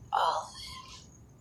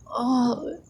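First: Breathy whispered repeat. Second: Said in the usual way. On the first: Acted. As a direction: drop it to a bare whisper. Repeated phrase, whispered take.

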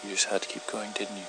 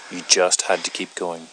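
First: Quiet menace. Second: Now let the anger show; angry. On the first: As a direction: let the threat simmer quietly. Low menacing after long pause. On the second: Repeats it louder, angrier. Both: Acted.

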